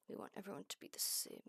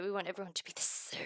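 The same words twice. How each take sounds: First: Fast, breathy whispered repeat. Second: Said in the usual way. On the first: Shown as a demonstration. Streamer whispers to the beads lining up, whispering. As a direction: whisper it like a creepy secret.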